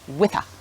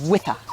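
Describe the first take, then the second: First: The two words are joined together. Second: The two words are joined together.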